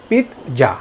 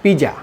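First: পিৎজা as "pit-ja", t before the j; correct pronunciation. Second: পিজা as "pi-ja", no t; common mispronunciation. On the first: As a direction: break পিৎজা after a stopped t. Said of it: "এটা সঠিক উচ্চারণ হবে". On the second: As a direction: run পিজা together as "pija". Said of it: "আমরা কী বলে থাকি". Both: Shown as a demonstration.

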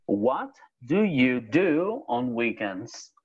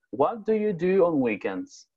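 First: Slow, clear, every word spaced out; slow modelling. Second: Said in the usual way. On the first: Shown as a demonstration. Teacher modelling the question slowly for a student. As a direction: say it slowly so the student can follow.

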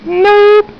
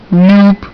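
First: Squeaky nope. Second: Said in the usual way. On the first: Shown as a demonstration.

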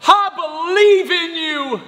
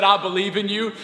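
First: Put-on high, slow child's cheer; Finley. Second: Said in the usual way. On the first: Daughter encouraging her dad before the backflip, wholehearted. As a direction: stretch it out high and loud like a little girl. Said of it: "she goes".

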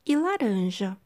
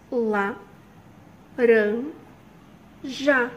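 First: Said in the usual way. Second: "La, ran, ja" called out loudly, one beat per syllable; teacher splitting "laranja" for kids. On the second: Shown as a demonstration. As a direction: shout out each syllable of "laranja" for the class.

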